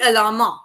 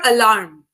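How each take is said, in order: First: An extra vowel is added after the final consonant. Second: The word ends cleanly on the final consonant. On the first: The speaker calls it wrong. "It shouldn't be alarma" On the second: The speaker calls it right. "Or alarm. Alarm as in noun"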